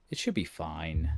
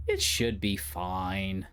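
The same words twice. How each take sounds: First: Said in the usual way. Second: Slowed half-doubtful self-reassurance; slow drawn-out reassurance. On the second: Shown as a demonstration. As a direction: stretch "It should be fine" out slowly. Says the line twice, slowed.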